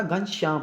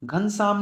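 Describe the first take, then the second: First: Said in the usual way. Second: घनश्याम said "ghansaam", plain s for sh; wrong "sam" ending. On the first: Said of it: "होता है". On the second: Shown as a demonstration. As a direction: flatten the sh in घनश्याम to a plain s, "ghan-saam". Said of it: "घनश्याम नहीं होता".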